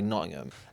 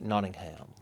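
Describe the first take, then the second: First: It is said with a local Nottingham pronunciation. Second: It is said with an American-style pronunciation. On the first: It is how people from there say it. "if you're from Nottingham, you would say Nottingham" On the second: It follows how the name is written. "the way Americans would say it"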